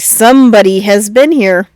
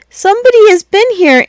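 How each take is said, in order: First: It is said in a soft growl. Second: It is said in a squeaky voice.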